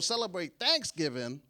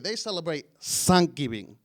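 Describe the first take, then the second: First: It is said in a neutral American accent. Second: It is said in a heavy Spanish accent. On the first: This is how most people say it. "normal people" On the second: This is how the speaker's family says it. "My mother has the worst accent"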